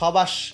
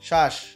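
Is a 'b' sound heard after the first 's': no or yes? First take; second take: yes; no. First: A 'b' sound is pronounced after the 's'. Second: No 'b' sound is pronounced after the 's'. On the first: The speaker calls it wrong. "এরকম কিন্তু না" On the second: The speaker calls it right. "বফলা কিন্তু উচ্চারণ হলো না"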